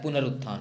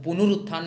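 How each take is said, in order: First: पुनरुत्थान said "punarutthan", plain a after n; correct pronunciation. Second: पुनरुत्थान said "punurutthan", with u after n; wrong pronunciation. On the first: Teacher correcting the spelling, पुनरुत्थान as "punarutthan", settled and low. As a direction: keep the न bare in पुनरुत्थान, lower and softer. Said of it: "होता है". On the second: Teacher showing the misspelling, पुनरुत्थान wrongly as "punurutthan". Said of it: "नहीं होता है". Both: Shown as a demonstration.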